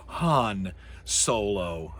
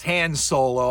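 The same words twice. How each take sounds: First: "Han" with an open "ah" vowel; corrected Han. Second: "Han" with the vowel of "hand"; mispronounced Han. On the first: Shown as a demonstration. Lecturer correcting himself on the pilot's name, slow "Han" with "ah". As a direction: say "Han" slowly, like "hahn". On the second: Real, not acted. Lecturer naming the forgotten pilot, "Han" rhymed with "man". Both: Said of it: "It's, I'm sorry".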